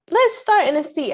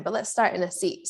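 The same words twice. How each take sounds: First: High, loud call to start; loud announcing. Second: Said in the usual way. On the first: Real, not acted. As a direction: call it out to the room. Teacher restarts class announcement.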